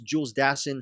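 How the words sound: The name is given an American pronunciation. "In America, stateside, it's"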